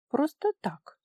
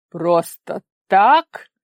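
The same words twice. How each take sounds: First: Higher, casual dismissive ending; offhand shrug. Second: Very slow, loud disbelieving repeat; menacing echo. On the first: Daughter dodging her father's question, casual and higher. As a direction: brush it off lightly. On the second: Father echoing his daughter's excuse, slow, loud and menacing. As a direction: throw her words back at her. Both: A narrator's reading.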